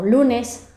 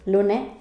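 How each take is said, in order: First: Standard accent with the final s pronounced. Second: Murcian accent with the final s dropped.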